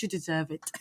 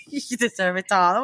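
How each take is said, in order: First: Soft, breathy British AI purr; a lightly faked British accent; bad British accent. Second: Half-hearted British AI voice; lightly faked British flattery; bad British accent. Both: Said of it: "I can't do British, uh, accent".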